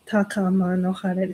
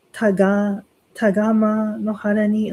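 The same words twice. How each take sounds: First: Chanted, "Takama no hara ni" with a clean k in "Takama"; chanted, recite it correctly after the slip; corrected chant. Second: "Tagama" said with a g where "Takama" has a k; mixed-up syllable demo. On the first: Chanted, priest showing the corrected line to worshipers, clean "Takama". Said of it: "and then you stop, and then you say". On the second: Priest demonstrating a chanting slip to worshipers, "Tagama" with a g. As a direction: fumble it: "Tagama no hara ni". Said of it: "I mixed up the syllable". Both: Shown as a demonstration.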